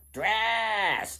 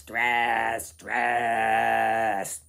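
First: Shrill-pitched goblin calling out; a little goblin shouting higher; high goblin cry. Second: Loud, low-pitched goblin bellow; a big goblin booming the word; low goblin cry. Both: Acted. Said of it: "they mumbled as they went".

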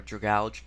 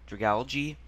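First: Dragalge ending in a plain "j" sound. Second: Dragalge ending in a spoken "gee"; two-syllable-plus-gee pronunciation. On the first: Offering the other reading in the quiz, Dragalge ending in "j". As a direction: say Dragalge as druh-GALJ. Trying two pronunciations of name. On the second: Sounding out a name in the quiz, Dragalge with a "jee" ending. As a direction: say Dragalge as druh-GAL-jee. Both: Shown as a demonstration.

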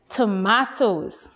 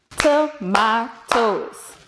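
First: Said in the usual way. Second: TOMATOES slowly in three separate beats; split into syllables. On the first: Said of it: "The word is tomatoes". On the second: Shown as a demonstration. Teacher claps one more word, TOMATOES syllable by syllable. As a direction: break TOMATOES into to, ma, toes, evenly spaced. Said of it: "let's clap one more word".

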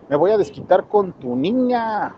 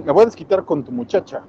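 First: Slow, drawn-out mock villain voice for "me voy a desquitar con tu niña"; a hammed-up thug threat, then taken back; wrong menacing voice. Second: Said in the usual way. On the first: Shown as a demonstration. Narrator tries a villain's threat, slow mock menace. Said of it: "Ah, no, ese no habla así, ese habla normal". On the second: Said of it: "ese habla normal".

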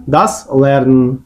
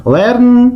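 First: «das» протягнуто й виділено, повільно; stress on das. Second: Said in the usual way. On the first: Shown as a demonstration. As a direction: das Lernen, повільно з наголосом на das. (повільно, з наголосом на «das»)

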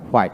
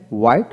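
First: হোয়াইট said "hwait"; sounded H. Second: হোয়াইট said "wait", plain w. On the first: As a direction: begin হোয়াইট with h before the w. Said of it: "আমরা হোয়াইট বলি". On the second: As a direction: begin হোয়াইট without h. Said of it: "হোয়াইট কখনো বলি না". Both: Shown as a demonstration.

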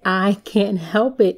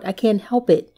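First: "I can't help it" slowed right down for emphasis; emphatic repeat. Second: Said in the usual way. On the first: Real, not acted. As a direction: stretch out "I can't help it", weighting each word.

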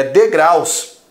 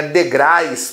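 First: Degraus slow, with a clear -AUS ending; correct plural. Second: Degrais with an -AIS ending; wrong plural. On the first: Teacher correcting the mistake, degraus slow with clear -aus. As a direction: stretch de-GRAUS, ending in au plus s. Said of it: "é degraus". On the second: Teacher rejecting a mistake, degrais with an -ais ending. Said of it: "não é". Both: Shown as a demonstration.

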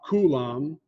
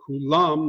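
First: "kulam" stressed on the first syllable; wrong syllable stress. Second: "Kulam" stressed on the last syllable; correct syllable stress. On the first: Teacher showing the mistake, "kulam" with first-syllable stress. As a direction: drag out the opening "ku" of "kulam". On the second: Teacher showing Hebrew accent, "Kulam" with final stress. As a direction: push the "lam" in "Kulam". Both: Shown as a demonstration. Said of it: "not kulam".

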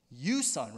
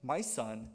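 First: Firm, accusing "You son"; imitated low, stern displeasure; upset, displeased father. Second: Low, gentle "My son"; fatherly address. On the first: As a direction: hit "You son" as a disowning rebuke. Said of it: "He's so upset, he's so displeased". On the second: Retold or imitated. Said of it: "he doesn't say".

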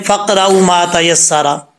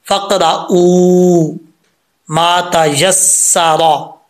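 First: Said in the usual way. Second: फ़क़रऊ with the waw held long, one alif length, very slow; stretched vowel. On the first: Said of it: "अक्सर लोग पढ़ते हैं". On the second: Shown as a demonstration. Teacher showing students the long waw in फ़क़रऊ, slow and drawn out. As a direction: draw out the ऊ in फ़क़रऊ before मा तयस्सरा. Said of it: "इसको एक अलिफ की मिकदार लंबा करेंगे".

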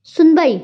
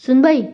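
First: "सुनबाई" high and louder, thrilled; almost shout "सुनबाई" with joy; excited realisation, voice jumping up; delighted near-shout. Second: Puzzled, higher-pitched "सुनबाई"; baffled questioning echo of the word. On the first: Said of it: "ती जवळजवळ ओरडलीच". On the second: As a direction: ask "सुनबाई" as if it hasn't clicked. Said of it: "तिला पहिलं क्लिकच होत नाही". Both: A narrator's reading.

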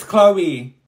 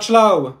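First: "Chloe" as KLOH-ee; corrected name. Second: "Chloe" as one syllable with CH, loud; mispronounced name. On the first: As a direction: say "Chloe" with a hard K and two syllables. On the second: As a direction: say "Chloe" as CHLOH. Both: Acted. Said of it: "it's Chloe".

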